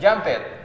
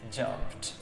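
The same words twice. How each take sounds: First: The ending is not said as a t sound. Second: The ending is said as a plain t sound. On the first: The speaker calls it wrong. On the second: The speaker calls it right.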